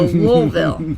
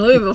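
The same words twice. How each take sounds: First: The word is mumbled, sounds run together. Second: The word is said crisply, every sound clear. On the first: The speaker calls it right. "Like you have marbles in your mouth" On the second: The speaker calls it wrong. "I'm not even saying it right"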